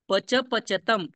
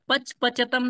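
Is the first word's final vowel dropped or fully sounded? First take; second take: full; dropped. First: The first word's final vowel is fully sounded. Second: The first word's final vowel is cut off. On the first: The speaker calls it right. "ऐसा बोलना है" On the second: The speaker calls it wrong. "नहीं बोलना है"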